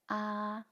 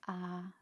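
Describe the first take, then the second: First: The level pitch is slightly high. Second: The level pitch is very low. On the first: "a bit high" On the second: "very low"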